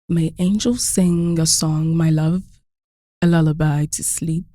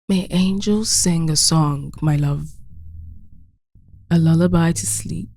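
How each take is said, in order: First: It is read quickly and casually. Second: It is read slowly and seriously.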